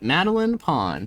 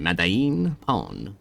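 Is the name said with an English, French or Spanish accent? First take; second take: English; Spanish. First: The name is said with a plain English accent. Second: The name is said with a Spanish accent.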